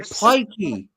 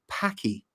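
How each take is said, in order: First: "Pikey" with long i as in pike; intended word. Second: "Packy" with a short a as in Pakistan; misheard word. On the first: Clearing up the mishearing, "Pikey" with long i. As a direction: say "Pikey" slowly, first vowel like "pie". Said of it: "I thought you said Packy". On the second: Explaining the misunderstanding, "Packy" with short a. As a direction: say "Packy" slowly, first vowel like "pack". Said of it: "I thought you said". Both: Shown as a demonstration.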